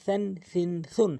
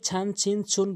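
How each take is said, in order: First: The first consonant is made with tongue at teeth. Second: The first consonant is not made at the teeth. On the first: The speaker calls it right. "জিব্বার আগা সামনে দুইটি দাঁতের আগা আগাতে মিলিত করলে এভাবে নর্মালি উচ্চারণ হয়" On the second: The speaker calls it wrong. "কখনোই ছান ছিন ছুন বলবেন না"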